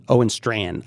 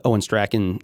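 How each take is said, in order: First: "Strachan" as one syllable, STRAN; proper pronunciation. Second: Strachan said as STRACK-en; unsure pronunciation. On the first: Host settling on a name, proper pronunciation. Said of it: "I believe, is the proper pronunciation". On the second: Podcast host announcing a response, unsure pronunciation. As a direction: say "Strachan" with a hard k, two syllables. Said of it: "I have no idea how to pronounce his name". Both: Real, not acted.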